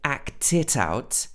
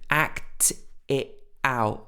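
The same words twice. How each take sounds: First: All the t sounds are fully pronounced. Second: The t sounds are glottal stops. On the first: "she didn't say act it out with all the T's" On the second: "So this is what's called a glottal stop"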